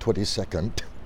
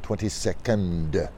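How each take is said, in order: First: The word ends with a hard T sound. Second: The word ends with a soft D sound. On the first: The speaker calls it wrong. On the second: The speaker calls it right.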